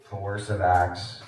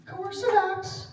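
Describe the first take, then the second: First: Very low, slow, drawn-out call; low droning roll call. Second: Very high, slow, drawn-out call; high-pitched roll call. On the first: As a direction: drone it like a teacher waiting for an answer. Roll-call joke, then says "Bueller. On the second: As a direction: call for the expert in a tiny high voice, stretched out. Roll-call joke seeking the expert. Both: Pretend.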